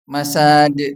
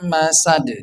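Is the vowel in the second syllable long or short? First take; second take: long; short. First: The second vowel is drawn out long. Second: The second vowel is kept short. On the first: The speaker calls it wrong. "Itu sebenarnya salah karena tidak ada mat di situ" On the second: The speaker calls it right. "Yang benar adalah mim masad"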